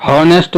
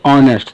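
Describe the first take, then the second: First: हॉनेस्ट with a sounded h at the start; हॉनेस्ट, breathy h before the ऑ; wrong pronunciation. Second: ऑनेस्ट with silent h, opening on ऑ; ऑनेस्ट, starting straight on the vowel ऑ; correct pronunciation. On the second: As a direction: say ऑनेस्ट the right way, no h. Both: Shown as a demonstration. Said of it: "pronunciation है ऑनेस्ट".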